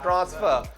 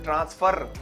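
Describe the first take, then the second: First: It has a British accent with the final r dropped. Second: It has an Indian accent with the final r pronounced.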